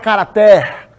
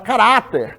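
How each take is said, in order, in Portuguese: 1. A sílaba tônica não fica na do meio. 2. A sílaba tônica fica na do meio. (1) "Ninguém fala" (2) "o Rá é a sílaba tônica"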